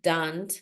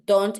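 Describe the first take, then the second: First: The vowel glides like an English O sound. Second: The vowel is a pure Spanish-style O. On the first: The speaker calls it right. "So it has to be don't" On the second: The speaker calls it wrong. "it's not don't because don't, it's an O in Spanish"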